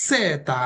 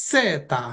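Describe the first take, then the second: Both takes have the same delivery.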